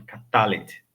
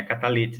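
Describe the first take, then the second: First: Catalete stressed on TA; correct catalete. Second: Catalete stressed on LE; wrong catalete. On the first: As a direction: catalete as ka-TA-let, pitched low. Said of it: "não, é catalete". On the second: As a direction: catalete as ka-ta-LE-ti, low and offhand. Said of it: "Não é catalete". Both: Shown as a demonstration.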